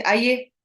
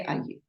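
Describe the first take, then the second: First: Loud, high, rising call; same word of invitation, raised and forceful; changed tone. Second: Soft, subdued word of welcome; understated, quiet invitation to come in; low-key greeting. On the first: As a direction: lift the pitch and punch it out. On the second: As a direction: say it quietly, without any lift. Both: Shown as a demonstration. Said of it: "but I changed my tone of voice".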